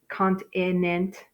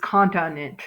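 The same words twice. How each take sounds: First: The middle vowel is a long i sound. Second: The middle vowel is a short uh sound. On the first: The speaker calls it wrong. "if you said cont continent, kind of works" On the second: The speaker calls it right. "naturally it's continent"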